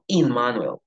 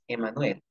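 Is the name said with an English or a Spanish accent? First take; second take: English; Spanish. First: The name is said with an English accent. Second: The name is said with a Spanish accent. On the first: "sino Immanuel" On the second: "yo no le digo mi nombre es Emanuel"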